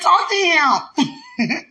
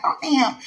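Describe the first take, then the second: First: Very slow, high and loud command; playful slow booming order; drawn-out mock God voice. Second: High mock command, stretched; a hint of a booming God. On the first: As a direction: drag out each word like a teasing God. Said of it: "That's how I feel". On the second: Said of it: "He ain't say it like that".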